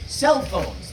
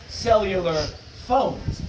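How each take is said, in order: First: "cell" punched, "phones" falling away; stress on first word. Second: "phones" set apart and pitched up; pause, then land the stress on "phones"; stress on second word. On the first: Lecturer showing the shortened name, stress on "cell". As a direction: hit "cell" and let "phones" drop. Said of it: "syllable is stressed". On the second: Lecturer showing the old stress, "phones" hit after a pause. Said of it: "stress the second word or syllable". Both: Shown as a demonstration.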